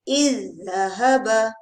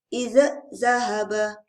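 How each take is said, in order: First: The first consonant merges into a doubled second one. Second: The first consonant is pronounced separately. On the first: The speaker calls it right. "Bacaan yang betul ialah ... terus masukkan yang kedua, syaddahkan dia" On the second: The speaker calls it wrong. "jangan pula baca begini, ini bacaan salah"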